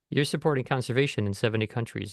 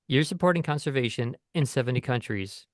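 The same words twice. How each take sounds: First: 'Conservation' blends smoothly into 'in' with no stop. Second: A glottal stop separates 'conservation' from 'in'. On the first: The speaker calls it right. "it would sound nicer to say" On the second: The speaker calls it wrong. "That's a glottal stop"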